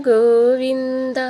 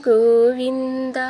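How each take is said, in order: The two takes are said the same way.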